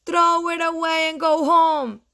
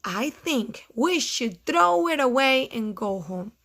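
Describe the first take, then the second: First: High, loud chanted dismissal; robins' loud taunt; jeering robins. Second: Toad passing it on at ordinary volume; toned-down storybook Toad; Toad repeating robins. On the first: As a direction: call it out high and loud as mean birds. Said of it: "said the robins". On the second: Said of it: "he said". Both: Acted.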